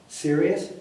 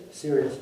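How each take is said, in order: First: Rising, surprised question on serious?; serious? lifted at the end in disbelief; retold question. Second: Serious. said flat and falling, confirming; Serious. settled with a falling tone; retold answer. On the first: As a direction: ask serious? with the tune climbing. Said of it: "Holy cow". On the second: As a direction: drop the tune on Serious. like a firm yes. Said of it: "I said".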